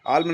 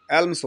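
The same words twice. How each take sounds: First: "आल्म" ending on M, no final s; wrong form without S. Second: "एल्म्स" ending in a clear s after M; final S sounded. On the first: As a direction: say "आल्म" with the S left off. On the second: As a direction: say "एल्म्स" with the S on the end. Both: Shown as a demonstration. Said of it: "ये हमेशा एस लगता है इसमें".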